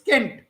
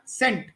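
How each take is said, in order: First: The word begins with a hard k sound. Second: The word begins with a soft s sound. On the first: This is the original Latin pronunciation. The speaker calls it right. "Latin had k, so it's kent" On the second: This is the later French-style pronunciation. The speaker calls it wrong. "not sent"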